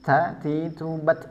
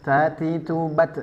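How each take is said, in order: The two takes are said the same way.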